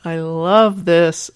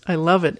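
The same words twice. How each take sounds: First: Emphatic delight. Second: Said in the usual way. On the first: Real, not acted. Host delighted by listener email.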